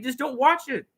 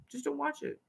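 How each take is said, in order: First: Said in the usual way. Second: Much softer, almost under the breath; soft repeat. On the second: Shown as a demonstration. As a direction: drop the level right down and say it again.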